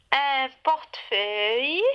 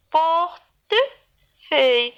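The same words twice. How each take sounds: First: Said in the usual way. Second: PORTEFEUILLE in three slow beats, por-te-feuille; split into syllables. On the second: Shown as a demonstration. Teacher counting syllables for children, "portefeuille" broken into three. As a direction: say "portefeuille" with a pause after each syllable. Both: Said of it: "Trois syllabes".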